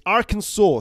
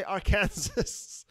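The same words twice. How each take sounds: First: "Arkansas" as AR-kən-saw, final s silent; "Arkansas" stressed on AR, ending "saw"; correct pronunciation. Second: "Arkansas" as ar-KAN-zəs, rhyming with Kansas; "Arkansas" mispronounced like "are Kansas"; wrong pronunciation. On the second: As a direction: say "Arkansas" slowly with KAN stressed and the final s sounded. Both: Shown as a demonstration. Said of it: "Do not say Arkansas".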